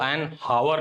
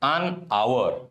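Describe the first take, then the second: First: The word hour starts with an h sound. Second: The word hour starts with a vowel sound. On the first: The speaker calls it wrong. "एन हावर नहीं बोलते हैं" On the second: The speaker calls it right. "हम लोग"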